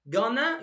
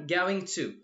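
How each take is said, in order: First: The words are blended into a short reduced form. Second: Both words are said fully and separately.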